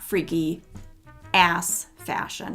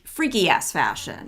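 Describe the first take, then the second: First: 'Ass fashion' is grouped together after 'freaky'. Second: 'Freaky ass' is grouped together before 'fashion'. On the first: It is freaky fashion for the backside. The speaker calls it wrong. "not freaky fashion for your ass" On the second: The fashion is very freaky. The speaker calls it right. "this is freak, freaky ass fashion"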